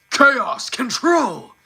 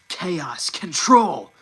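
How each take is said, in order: First: High, loud, slow gruff battle cry; gruff shout. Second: Said in the usual way. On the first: Shown as a demonstration. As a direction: roar it out rough and drawn out. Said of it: "brings a lot more gruff to the voice". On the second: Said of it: "brings a lot more gruff".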